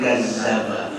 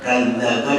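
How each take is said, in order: First: The doubled consonant is a buzzing 'z' sound. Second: The doubled consonant is a soft 'dh' sound.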